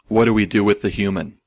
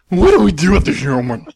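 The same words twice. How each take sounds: First: The line is read flat, without emotion. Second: The line is read with marked, expressive emotion. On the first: "lacking a lot of emotion. And he read it something like this" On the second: "I was going to pronounce the line something like this"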